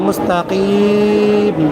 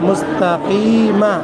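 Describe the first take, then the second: First: The word ends without a vowel, vowel drawn out. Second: The word ends with a short 'a' vowel. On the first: "যদি অক্ষ করে পড়ি তাহলে মুস্তাকিম, তিন আলিফ টান হবে" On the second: "মিম জবর মা"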